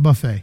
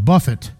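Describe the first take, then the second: First: The stress is on the second syllable. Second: The stress is on the first syllable. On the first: It means a self-service meal. The speaker calls it wrong. "not buffet. I was at a buffet today" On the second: It means to strike or beat. The speaker calls it right. "No, buffet"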